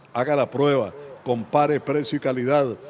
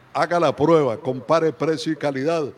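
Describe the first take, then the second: No difference in how they are said.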